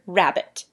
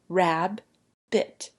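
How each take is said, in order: First: It is said smoothly as one word. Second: It is split into two separate syllables. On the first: "blend it together" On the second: "you can look at it in chunks"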